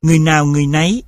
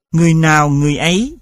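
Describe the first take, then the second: First: Last word "nấy" with an added n; "người nấy" joined by an added n; added sound. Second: Said in the usual way. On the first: Shown as a demonstration. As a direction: insert n at the start of "nấy". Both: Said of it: "hiện tượng thêm âm".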